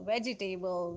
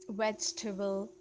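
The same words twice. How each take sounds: First: It is said with a Pakistani pronunciation. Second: It is said with a native-speaker pronunciation. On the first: The speaker calls it wrong. "People usually in Pakistan call it" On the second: The speaker calls it right. "Speak like a native speaker"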